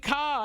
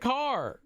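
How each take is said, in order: First: The final R sound is dropped. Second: The final R sound is clearly pronounced. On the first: The speaker calls it wrong. "I didn't say car" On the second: The speaker calls it right. "I said car. ... I pronounce my R's in everything"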